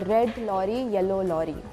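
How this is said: It is spoken in an Indian English accent. "Some of the Indians would say"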